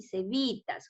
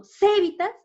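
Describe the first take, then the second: First: "cevitas" lower and softer, stressed on vi; correct stress. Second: "cevitas" higher, with the first syllable ce punched; strong high ce at the start of "cevitas"; misplaced stress. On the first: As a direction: say "cevitas" as ce-VI-tas. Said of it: "Sería en la bi". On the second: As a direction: say "cevitas" as CE-vi-tas, pitched up. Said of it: "aquí está subrayada C". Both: Shown as a demonstration.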